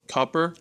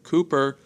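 First: The first vowel is short, as in foot. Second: The first vowel is long, as in food. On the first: This is how the name is said where he is from. The speaker calls it right. "It's more like Copper" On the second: This is the common way most people say it. The speaker calls it wrong. "his pronunciation of his last name is not Cooper"

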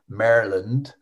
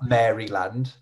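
First: It is said the American way. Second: It is said the British way. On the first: The speaker calls it right. "I'm going to have to say this right because I have so many hate messages from Americans" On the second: The speaker calls it wrong. "like the cookies"

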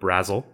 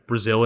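First: It is pronounced the local Indiana way. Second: It is pronounced the familiar, expected way. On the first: This is how the town itself says the name. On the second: This is how outsiders would read the name. "here's every town in Indiana that you, like"

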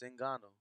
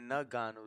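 First: The name begins with a plain 'n' sound. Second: The name begins with a separate 'nug' syllable. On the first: The speaker calls it right. "It's Ngannou" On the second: The speaker calls it wrong. "It's not Nug. You keep saying Ngannou"

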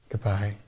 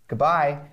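First: It is said in a soft, tender way. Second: It is said in a plain, ordinary way.

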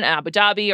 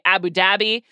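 First: The name is said in an American way. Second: The name is said in a British way.

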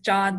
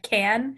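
First: The name begins with a J sound. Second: The name begins with a hard K sound. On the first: The speaker calls it right. "the C is a J sound in Turkish" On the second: The speaker calls it wrong. "looks like it would be said can"

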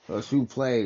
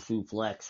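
First: It is said with a French accent. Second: It is said in a plain English accent.

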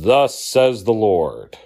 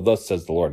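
First: It is said in a grand prophet voice. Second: It is said in a plain, ordinary voice.

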